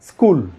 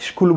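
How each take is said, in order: First: It starts with a plain s sound. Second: It starts with an sh sound. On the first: The speaker calls it right. "এসের জন্য দন্তস" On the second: The speaker calls it wrong. "আমরা স্কুল বলবো না"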